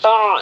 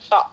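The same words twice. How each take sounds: First: The catch is a throaty, squeezed ain-like sound. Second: The catch is a clean, plain glottal stop. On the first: The speaker calls it wrong. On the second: The speaker calls it right.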